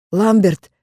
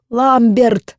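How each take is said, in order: First: A scared cry of a name; frightened call. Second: Loud high desperate scream; desperate shout. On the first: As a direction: call out in fear. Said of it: "испуганно позвала я". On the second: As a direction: scream the name in despair. Screams name toward burning castle. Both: A narrator's reading.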